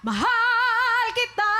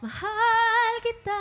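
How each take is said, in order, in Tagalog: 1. Madiin at malakas ang pagkakasabi, parang pinipilit. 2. Malambing at mahinahon ang pagkakasabi. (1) "Kesa sa" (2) "isipin mo lang na kinakanta mo to sa taong um, minamahal mo. Parang gusto mo na iparating yung mensahe"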